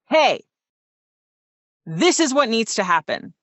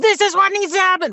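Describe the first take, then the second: First: The voice sounds grounded and supported by breath. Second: The voice sounds strained and unsupported by breath.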